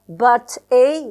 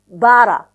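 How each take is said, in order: First: The two words are said separately. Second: The two words are fused into one.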